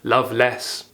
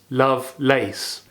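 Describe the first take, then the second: First: The last syllable sounds like 'less'. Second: The last syllable sounds like 'lace'.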